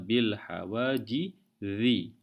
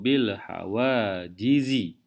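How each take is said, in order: First: The last consonant sounds like 'th' in 'this'. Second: The last consonant is a harsher buzzing 'z' sound. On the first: The speaker calls it wrong. "Apabila huruf Zal bunyinya bil hawajizi. Itu sebutan yang salah" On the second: The speaker calls it right. "Sebutan yang betul bunyinya sedikit kasar"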